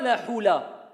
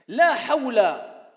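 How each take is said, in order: First: The vowel after h is an 'oo' sound. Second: The vowel after h is an 'aw' sound. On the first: The speaker calls it wrong. "ce n'est pas la hula" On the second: The speaker calls it right.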